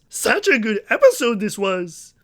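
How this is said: It is said in a put-on character voice.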